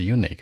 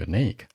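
First: The stress is on the first syllable. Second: The stress is on the second syllable. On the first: The speaker calls it wrong. "注意重音往后靠，不是unique" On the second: The speaker calls it right. "是unique"

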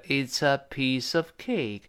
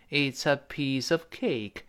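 The two takes are said the same way.

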